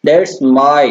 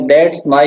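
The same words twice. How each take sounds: First: "that's" unstressed, then "my" pushed; stress on MY. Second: Said in the usual way. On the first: Shown as a demonstration. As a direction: lean on "my" after a lighter "that's". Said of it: "my press कर देना है". ("that's" हल्का, "my" पर ज़ोर) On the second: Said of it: "बोल के देख सकते हैं".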